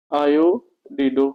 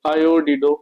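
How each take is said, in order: First: आयोडिडो stretched out very slowly; teacher spelling out आयोडिडो at a crawl; slow dictation. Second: Said in the usual way. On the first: Shown as a demonstration. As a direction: dictate आयोडिडो slowly so students can copy. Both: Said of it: "इसको क्या लिखेंगे?".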